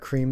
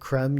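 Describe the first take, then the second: First: The word is said with a plain English pronunciation. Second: The word is said with a French pronunciation. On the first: "You could just call it vanilla cream though" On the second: "If you want to be uh, uh, Francais and pronounce it creme"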